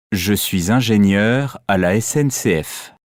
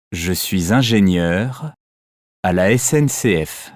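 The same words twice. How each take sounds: First: "Je suis ingénieur à la S N C F" run together without a break; one smooth linked phrase; one phonetic word. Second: "Je suis ingénieur" and "à la S N C F" apart with a pause; chopped into two groups; split into chunks. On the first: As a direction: flow "ingénieur" straight into "à la S N C F". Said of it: "Prononcez chaque mot phonétique comme un seul mot". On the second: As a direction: stop after "ingénieur", then "à la S N C F". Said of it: "On prononce un groupe de mots comme un seul mot". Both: Shown as a demonstration.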